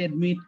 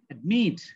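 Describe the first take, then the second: First: Both syllables are said evenly without stress. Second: The second syllable is stressed and higher. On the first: The speaker calls it wrong. "Normally আমরা বলি কি admit" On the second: The speaker calls it right. "যদি সঠিক উচ্চারণ করতে চাই"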